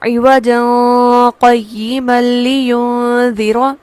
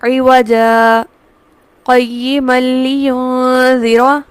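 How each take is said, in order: First: The words run together with no break between them. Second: The voice stops briefly after the first word. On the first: The speaker calls it wrong. "मिलाकर पढ़ने की सूरत में हमें बज़ाहिर मालूम होगा कि शायद यहाँ पर इख्फा किया जाएगा" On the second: The speaker calls it right. "मैंने सिर्फ आवाज का लम्हे भर को वक्फ दिया है और फिर उसे मिला के पढ़ लिया है"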